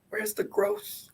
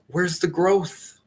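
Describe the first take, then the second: First: Much higher squeaky Where's the growth with a rise; squeaky mock coach. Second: Slow, higher mock demand, Where's the growth drawn out; mock pushy coach. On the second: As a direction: slowly needle them with Where's the growth. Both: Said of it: "I'm not gonna then say, like".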